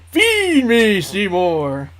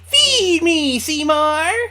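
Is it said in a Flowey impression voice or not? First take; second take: no; yes. First: It is said without a Flowey impression. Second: It is said in a Flowey impression voice.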